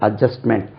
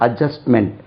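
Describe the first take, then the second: No difference in how they are said.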